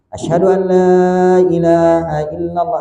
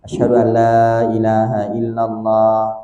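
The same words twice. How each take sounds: First: It is said in a loud, full voice. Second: It is said in a soft, low voice. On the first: "diulangi dengan suara yang keras" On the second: "dengan suara yang lirih, yang kecil"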